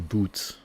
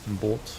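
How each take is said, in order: First: The vowel is a long 'oo' sound. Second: The vowel is a long 'oh' sound. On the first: The speaker calls it wrong. "you don't say boot, because that's like shoe" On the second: The speaker calls it right. "You say boat"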